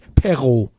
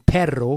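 First: The r sound is made without a tongue roll. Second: The r sound is rolled with the tongue. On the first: The speaker calls it wrong. "sagen die perro" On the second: The speaker calls it right. "sagen müssen perro für Hund"

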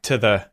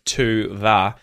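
First: The vowels are reduced to a weak schwa. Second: The vowels are said fully and clearly. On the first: "we have the schwa, that vowel sound, take over words like" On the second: "instead of"

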